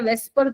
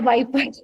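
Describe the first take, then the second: First: The word starts with a 'ves' sound. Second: The word starts with a 'vai' sound. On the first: The speaker calls it wrong. "वेस्पर theory गलत बोलते, गलत होता है।" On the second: The speaker calls it right. "वाइपर theory सही है।"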